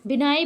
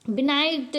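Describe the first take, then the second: First: बिनाई ending on the vowel; silent consonant. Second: बिनाइट with a final T sound; read as spelt. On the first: Teacher giving learners her reading, बिनाई with open ending. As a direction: say बिनाई with no final T. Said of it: "बिनाई पढ़ते हैं". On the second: Teacher reading the spelling to learners, बिनाइट with sounded ending. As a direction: close बिनाइट on a T. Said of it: "दिया है". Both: Shown as a demonstration.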